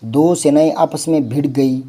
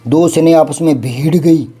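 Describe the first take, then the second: First: भिड़ with a brief i; no stretch on the vowel of भिड़; correct short vowel. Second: Louder, with भीड़ stretched to "bheed"; mock error, overlong भीड़; wrong long vowel. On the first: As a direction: keep भिड़ quick, "bhid". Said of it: "ये ठीक है". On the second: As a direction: draw out the ī in भीड़ forcefully. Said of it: "यूँ थोड़ी हो जाएगा". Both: Shown as a demonstration.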